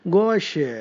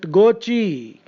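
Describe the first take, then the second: First: The word ends in a 'sh' sound. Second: The word ends with an added 'ee' vowel. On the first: The speaker calls it right. "has to be pronounced sha or sha" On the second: The speaker calls it wrong. "you are probably tempted to pronounce it Gochi"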